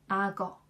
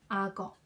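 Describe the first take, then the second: Both takes have the same delivery.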